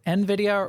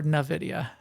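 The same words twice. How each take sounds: First: Nvidia with initial EN, as en-VID-ia; first pronunciation option. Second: Nvidia said as nuh-VID-ia; second pronunciation option. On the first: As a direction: say nvidia starting with the letter N. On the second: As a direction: start nvidia with "nuh", not the letter N. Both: Shown as a demonstration. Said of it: "is it nvidia or nvidia".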